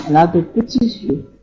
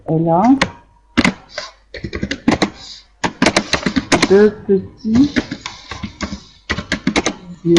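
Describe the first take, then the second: First: Said in the usual way. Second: "Elle a de petits yeux" broken into words with long gaps; slow dictation. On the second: Shown as a demonstration. (« Elle a de petits yeux » dicté lentement, mot à mot)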